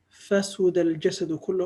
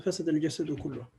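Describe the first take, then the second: First: فسد as fasuda, middle vowel u; alternative verb form. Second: فسد as fasada, middle vowel a; alternative verb form. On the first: Teacher quoting the hadith, فسد with middle u. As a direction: pronounce فسد "fa-SU-da". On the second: Teacher repeating the hadith, فسد with middle a. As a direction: pronounce فسد "fa-SA-da". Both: Shown as a demonstration. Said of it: "So it could be pronounced as".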